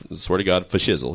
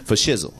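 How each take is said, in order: First: Imitating [name] promising to hang out; [name] voice. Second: Lightly voiced, closer to the speaker's own tone; a quick, easy repeat of for shizzle; a light hint of [name] repeating the catchphrase; [name] voice. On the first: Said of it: "And [name] says". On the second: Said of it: "He says".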